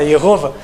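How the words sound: The name is said in an American way.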